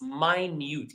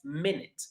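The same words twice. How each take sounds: First: It is the pronunciation used for 'small'. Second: It is the pronunciation used for 'time'. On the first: Something is very small. "Please focus on the uh, pronunciation of the last word. It's minute" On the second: A unit of time. "If it means time, that's minute"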